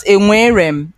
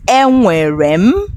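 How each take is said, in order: First: Enwerem said wrong, quick and without the n; learner's faulty enwerem, first n dropped; mispronounced enwerem. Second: Enwerem drawn out slowly, rising at the end; slow, careful enwerem for learners to copy; correct enwerem. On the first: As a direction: show the wrong, hurried enwerem. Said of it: "It's not". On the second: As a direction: model enwerem slowly with a clear first n. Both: Shown as a demonstration.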